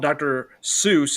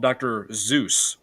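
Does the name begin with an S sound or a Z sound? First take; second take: S sound; Z sound. First: The name begins with an S sound. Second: The name begins with a Z sound. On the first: The speaker calls it wrong. "he's not called Doctor Seuss" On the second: The speaker calls it right. "He's called Doctor Zeus with a Z"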